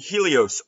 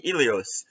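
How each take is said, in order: First: The word starts with a clear H sound. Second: The word starts without any H sound.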